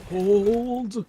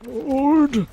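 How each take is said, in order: First: Raised urgent call to hold; shouted callout. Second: Full high shout to hold position; louder shout. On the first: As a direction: call it out to your team. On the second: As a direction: yell it urgently, louder. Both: Real, not acted. Callout in team fight.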